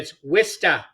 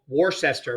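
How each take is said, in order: First: The word is said with two short syllables. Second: The word is said with three full syllables. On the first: This is how locals say the name. The speaker calls it right. "Not in in New England" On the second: This is how outsiders read the name. The speaker calls it wrong. "Most people"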